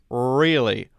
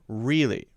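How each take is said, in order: First: The R is strongly curled and sounds very heavy. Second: The R is moderately curled and sounds balanced. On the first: The speaker calls it wrong. "that's too strong" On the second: The speaker calls it right. "My tongue is pointed pretty much straight up"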